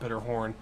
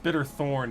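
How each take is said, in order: First: The name has a plain 'h' before 'orn'. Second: The name has a 'th' sound before 'orn'. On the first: The speaker calls it wrong. "not Bitterhorn" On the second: The speaker calls it right. "it's Bitterthorn"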